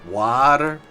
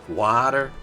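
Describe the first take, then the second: No difference in how they are said.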